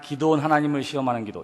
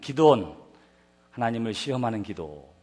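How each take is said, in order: First: The words run on without a pause. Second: There is a pause after the first word. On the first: The speaker calls it wrong. "이렇게 하진 않지요" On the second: The speaker calls it right. "이렇게 쉼표를 끊어서 읽어야 하는 것처럼"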